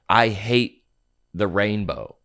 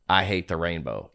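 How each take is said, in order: First: It is said in the speaker's own plain voice. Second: It is said imitating a conservative uncle's voice.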